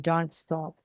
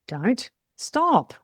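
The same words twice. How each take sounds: First: One smooth, warm, urging phrase. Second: Two separate sharp, stern commands. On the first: The listener should keep going. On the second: The listener should not do that and should stop.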